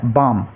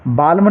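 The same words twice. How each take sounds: First: बाम with no L, vowel straight into m; silent L. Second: बाल्म with the L pronounced before the m; mistaken L sounded. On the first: Teacher correcting the reading of balm, बाम without any L. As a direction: say बाम low, leaving the L silent. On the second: Teacher warning students off a mistake, बाल्म with a sounded L. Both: Shown as a demonstration. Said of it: "बाल्म नहीं पढ़ना है".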